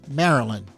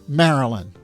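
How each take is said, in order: The two takes are said the same way.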